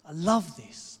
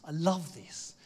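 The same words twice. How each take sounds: First: Delighted exclaim. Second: Said in the usual way. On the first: Real, not acted. Preacher delights in Jesus coming home, loud joy. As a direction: let the delight spill out.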